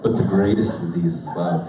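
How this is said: It is said in a low, deep voice. "We're going to go low now. Think Dwayne Johnson"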